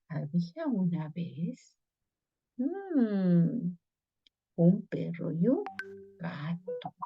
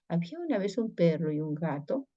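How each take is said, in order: First: There is a pause after 'Había una vez'. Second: It is said straight through without a pause.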